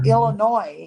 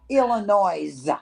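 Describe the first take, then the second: First: It ends without an S sound. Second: It ends with an audible S sound. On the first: The speaker calls it right. "you don't pronounce the S on the end of that either" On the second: The speaker calls it wrong. "so many stupid ass people call it Illinois"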